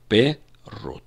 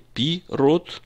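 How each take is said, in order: First: The first vowel is an 'eh' sound. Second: The first vowel is an 'ee' sound. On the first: The speaker calls it right. "а пе-рот" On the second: The speaker calls it wrong. "Мы читаем не пи-рот"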